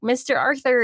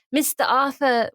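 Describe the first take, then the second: First: Said in the usual way. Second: Non-rhotic British greeting; British accent. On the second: Retold or imitated. Man approaches Arthur at theater, British accent. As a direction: say "Mister Arthur" in British, dropping both r's. Retold line, then corrected to American.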